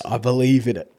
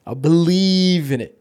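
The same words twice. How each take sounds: First: Said in the usual way. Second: Slow, drawn-out conviction; slow emphatic. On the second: Shown as a demonstration. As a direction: stretch every word, full belief.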